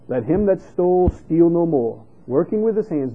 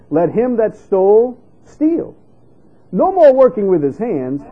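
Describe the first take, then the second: First: The pause comes after "no more." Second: The pause comes after "steal."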